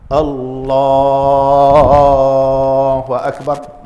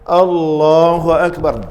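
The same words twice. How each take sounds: First: The takbir is drawn out long. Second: The takbir is said short and quick.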